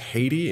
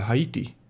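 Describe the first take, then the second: First: The name is said with an English pronunciation. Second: The name is said with a non-English pronunciation. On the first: "I should pronounce this as Haiti in English" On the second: "we pronounce it as uh"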